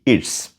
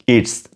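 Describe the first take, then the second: First: The words merge into one contracted syllable. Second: The same.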